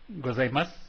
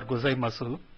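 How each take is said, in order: First: The final u vowel is left silent. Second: The final u vowel is clearly pronounced. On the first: The speaker calls it right. "but as" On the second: The speaker calls it wrong. "We don't pronounce these words as"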